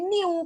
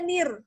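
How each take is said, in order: First: The word ends in a vowel, without r. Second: The word ends in a trilled r. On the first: The speaker calls it wrong. "yang biasa orang salah, orang udah manyu niu" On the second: The speaker calls it right. "Harusnya nir"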